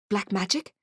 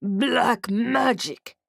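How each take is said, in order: First: Said in the usual way. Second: Slow, heavy orc words. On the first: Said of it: "I was confused". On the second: Acted. Orc whispering a secret to narrator, slow orc voice. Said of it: "he said".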